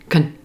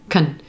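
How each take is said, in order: First: A quick, reduced syllable with an 'uh' vowel. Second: A quick, reduced syllable with an 'uh' vowel.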